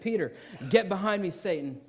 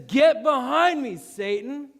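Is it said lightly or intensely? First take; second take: lightly; intensely. First: It is said lightly, without much force. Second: It is said intensely, with strong force.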